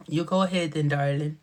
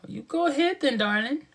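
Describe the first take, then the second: First: Said in the usual way. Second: Playful high voice, lifting at the end; high-pitched cooing. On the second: Acted. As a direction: coo it way up high. Playful line said high, then repeated lower.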